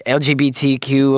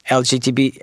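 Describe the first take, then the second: First: "L G B T Q" in the right order, each letter clear; corrected letters. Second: "L G T B" said with T before B, a muddled slip; wrong letter order. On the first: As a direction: spell out "L G B T Q" properly. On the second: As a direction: say "L G T B", letters swapped. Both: Real, not acted. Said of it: "you can't even get the name right".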